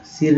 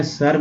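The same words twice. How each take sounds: First: सिर with a short "i" in the middle; short-i pronunciation. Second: सर with "uh" in the middle; neutral-vowel pronunciation. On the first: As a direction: say सिर with "i" instead of "uh". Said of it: "सिर नहीं बोलते हैं". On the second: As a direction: say सर like English "sir", not "seer". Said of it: "सर क्या बोलते हैं". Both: Shown as a demonstration.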